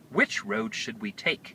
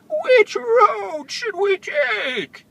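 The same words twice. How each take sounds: First: It is read in a plain narrating voice. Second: It is read in a put-on character voice. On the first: The speaker calls it wrong. "I'm sorry" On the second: The speaker calls it right. "Cyril would have said it like this"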